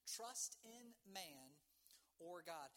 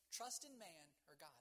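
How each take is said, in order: First: "Trust in Man" drawn out, pause before "or God"; deliberate, spaced-out question on "Trust in Man or God"; slow, weighty repeat. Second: Said in the usual way. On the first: Real, not acted. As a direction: stretch each word of "Trust in Man", then set "or God" apart. Title repeated slowly as a question.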